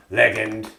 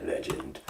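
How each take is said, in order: First: "Legend" said with a hard g, as leg-end; dirty driver's catchphrase. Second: Said in the usual way. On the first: Acted. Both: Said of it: "in the style of the dirty driver".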